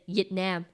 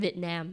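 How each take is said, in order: First: The first sound is like a Y. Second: The first sound is a clear V. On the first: This imitates how the father says it. "my dad personally cannot say the V's. Like he says Vietnam" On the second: This is how others say it. "instead of"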